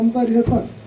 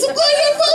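First: It is said in a calm, friendly tone. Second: It is said in a manic, passive-aggressive tone.

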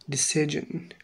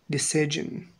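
Both takes have the same delivery.

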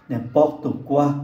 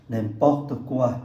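Both takes have the same delivery.

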